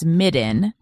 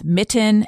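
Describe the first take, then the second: First: The middle consonant is a D sound. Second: The middle consonant is a clear T sound. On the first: "So the T as D's" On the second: "So the T as D's"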